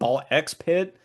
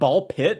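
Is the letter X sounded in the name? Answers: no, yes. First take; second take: yes; no. First: The name is said with an X sound. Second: The name is said without an X sound. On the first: This is how the speaker has always said it. "I've always said ball X pit" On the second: This is how other people say the name. "I've heard people call it ball pit"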